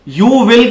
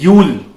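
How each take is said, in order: First: It is said as two full separate words. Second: It is said as one short contracted syllable. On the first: The speaker calls it wrong. "यू विल की जगह" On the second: The speaker calls it right. "आप यूल बोलेंगे"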